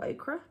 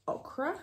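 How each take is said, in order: First: "Ochra" said OH-kruh, long O as in "oak"; "Ochra" first syllable like "oh", rising at the end. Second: "Ochra" said OK-ruh, short open O as in "lock"; "Ochra" first syllable like "ock", rising at the end. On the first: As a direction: stretch the O of "Ochra" into "oh". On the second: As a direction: say "Ochra" with a clipped short O at the front. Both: Shown as a demonstration. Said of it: "however you'd like to pronounce it".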